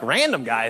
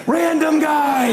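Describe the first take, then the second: First: Low, puzzled question. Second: High, slow, drawn-out cry of recognition; thrilled realization. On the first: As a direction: mull over an unfamiliar name, baffled. Acts out puzzling over caller ID. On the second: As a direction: cry out as it suddenly clicks. Realizes who is calling, thrilled. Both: Acted.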